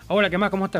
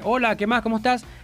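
First: It is said in an annoyed, hostile tone. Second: It is said in a friendly, neutral tone.

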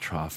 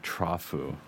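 First: The word ends on its final consonant. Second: The word ends with an added vowel sound. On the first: The speaker calls it right. "That's actually pronounced trough" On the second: The speaker calls it wrong. "not trough-u"

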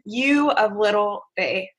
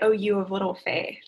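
First: It sounds disgusted and disappointed. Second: It sounds kind and gentle.

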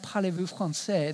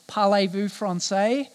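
First: It is spoken with a standard French accent. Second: It is spoken with a broad Australian twang. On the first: "instead of saying something like" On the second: "this Ocker twang to it"

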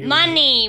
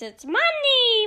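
First: It is said in a deep, man-like voice. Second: It is said in a high, lady-like voice. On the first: "think if the man was... It wasn't the witch noise" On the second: "But when it's a lady voice"

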